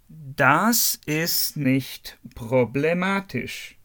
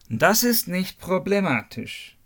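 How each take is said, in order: First: The sentence is spoken at a normal, unhurried speed. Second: The sentence is spoken quickly.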